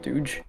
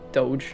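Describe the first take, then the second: First: It is said like the word douche. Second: It is said like the start of Dogecoin. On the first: The speaker calls it wrong. "not Doge" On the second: The speaker calls it right. "it's pronounced Doge"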